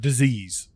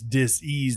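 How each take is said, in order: First: The word is said smoothly as one unit. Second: The word is split into dis and ease. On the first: "people tend to pronounce that word disease" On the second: "when you break it down, it is dis-ease"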